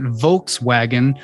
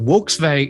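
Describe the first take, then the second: First: It is said with an American English pronunciation. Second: It is said with a German pronunciation. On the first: "we Americans will say we say pronounce it Volkswagen" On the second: "Germanic language they pronounce it Volkswagen"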